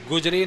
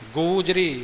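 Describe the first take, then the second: First: The first vowel is short. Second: The first vowel is long. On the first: The speaker calls it wrong. "गुजरी नहीं बोलना" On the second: The speaker calls it right. "गूजरी महला चौथा"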